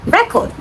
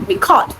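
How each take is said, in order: First: "record" with the stress on the first syllable. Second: "record" with the stress on the second syllable. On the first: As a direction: say "record" as the noun, REC-ord. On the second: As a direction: say "record" as the verb, re-CORD. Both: Shown as a demonstration. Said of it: "from the first syllable to the second".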